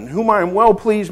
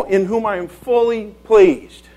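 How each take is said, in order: First: Said in the usual way. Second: "fully" stressed, slow and drawn out. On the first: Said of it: "means, well, is there more or less?". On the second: Shown as a demonstration. Preacher corrects "well pleased" to the better version, "fully" stressed slowly. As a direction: lean hard and slowly on "fully". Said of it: "No, "In whom I am fully pleased".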